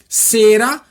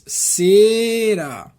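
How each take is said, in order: First: The word is said quickly. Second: The word is said slowly. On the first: "Essa aqui rapidinho" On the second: "Agora eu vou falar devagarzinho"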